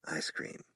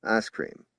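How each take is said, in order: First: Whispered, very soft; murmured. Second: Said in the usual way. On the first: A narrator's reading. Sam murmuring to the girl, whispered. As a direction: breathe it out. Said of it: "he murmured".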